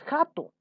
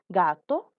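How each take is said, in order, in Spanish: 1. Empieza con una consonante fuerte y gutural. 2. Empieza con una consonante suave. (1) "Tú no dices jato" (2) "Estos son sonidos débiles y agradables"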